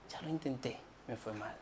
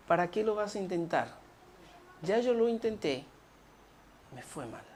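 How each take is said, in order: First: Near-whispered defeat. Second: Defeated quiet quote. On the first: Repeating the discouraged words. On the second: Voicing a discouraged person. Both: Retold or imitated.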